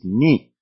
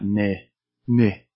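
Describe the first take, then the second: First: The vowel is a clear, tense 'ee' sound. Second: The vowel is lax and shallow, not 'ee'. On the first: The speaker calls it right. "The Japanese way of saying N-I" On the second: The speaker calls it wrong. "That sounds very lazy"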